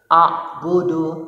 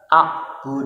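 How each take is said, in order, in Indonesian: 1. Kata ini berakhir dengan vokal pendek. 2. Kata ini berakhir dengan konsonan mati. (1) "bertanda dhammah" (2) "diwakafkan harus dibaca sukun"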